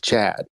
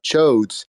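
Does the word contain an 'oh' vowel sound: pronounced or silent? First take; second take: silent; pronounced. First: The word is said without an 'oh' vowel. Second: The word is said with an 'oh' vowel. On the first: The speaker calls it right. "The O is silent" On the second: The speaker calls it wrong. "It's not Chodes"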